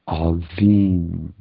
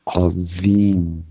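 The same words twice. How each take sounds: First: The middle consonant is a soft 'dh' sound. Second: The same.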